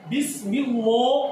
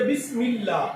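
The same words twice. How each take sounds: First: "اللہ" with a heavy, rounded lam, "lloh"; slow recitation, "اللہ" said thick and dark. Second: "اللہ" with a light, clear lam, "llah"; slow recitation, keep "اللہ" thin and open. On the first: Teacher asking whether it is thick or thin, heavy lam. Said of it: "بریک پڑھیں گے یا موٹا پڑھیں گے". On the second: Teacher offering the thin reading, light lam. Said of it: "اس کو بریک پڑھیں گے". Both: Shown as a demonstration.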